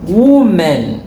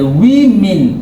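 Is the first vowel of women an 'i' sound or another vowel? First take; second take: another vowel; i sound. First: The first vowel is not an i sound. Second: The first vowel is a short i sound. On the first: The speaker calls it wrong. "et non women" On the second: The speaker calls it right. "c'est I, plus I, c'est women"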